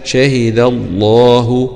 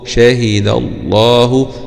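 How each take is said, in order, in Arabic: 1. اللام في لفظ الجلالة مفخّمة وثقيلة. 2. اللام في لفظ الجلالة مفخّمة وثقيلة.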